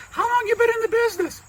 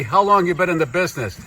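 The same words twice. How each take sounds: First: Very high, quick squeaky voice; high-pitched comic character question; botched guest voice. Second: Said in the usual way. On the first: Acted. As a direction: ask it in a silly high puppet voice. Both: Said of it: "No, wait, that's your voice".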